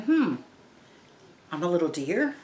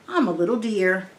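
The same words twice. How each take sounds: First: A puzzled questioning echo; puzzled girl. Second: Said in the usual way. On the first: Pretend. Teacher voicing the confused girl, in a questioning tone. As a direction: rise on deer as if confused. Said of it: "the little girl's thinking". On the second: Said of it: "she says".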